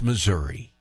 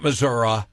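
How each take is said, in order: First: The word ends with an 'ee' sound. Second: The word ends without an 'ee' sound. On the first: The speaker calls it right. "There's an I on the end of the word" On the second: The speaker calls it wrong. "it's not Missouri"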